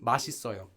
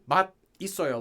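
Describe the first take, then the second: First: 맛 is linked smoothly into the following syllable. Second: 맛 is said apart, its final sound not linked. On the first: The expression is treated as one word. "if it's together, it's supposed to be 맛있어요" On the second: The two parts are treated as separate words. "If you're separating it though, if you're saying 맛있어요, then you would always say 맛있어요 like that"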